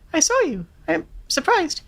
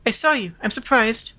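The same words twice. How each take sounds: First: It is spoken in a high falsetto head voice. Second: It is spoken in a normal chest voice.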